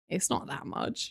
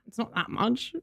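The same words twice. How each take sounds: First: Slow, breathy whisper of the line; a quiet little whispered repeat; whispered aside. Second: Said in the usual way. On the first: Shown as a demonstration. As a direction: drop to a hushed whisper, slowly.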